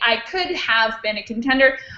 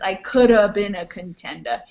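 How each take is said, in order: First: Could have is said in full, two clear words. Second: Could have is squeezed together into coulda. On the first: "the full correct pronunciation would be" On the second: "Instead of saying could have, he would say coulda"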